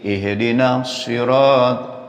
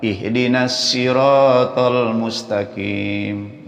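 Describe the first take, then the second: First: Slow, heavy emphatic s in "sirat"; "sirat" opened with a full, dark s; distinct sod sound. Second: Slow recital with a thin s in "siratal"; "siratal" opened with a hissy light s; mistaken sin sound. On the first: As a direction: say "sirat" with a thick Arabic sod. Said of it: "bacanya biar beda dikit". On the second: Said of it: "jangan ihdinas siratal mustaqim". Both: Shown as a demonstration.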